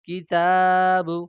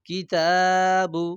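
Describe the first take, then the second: No difference in how they are said.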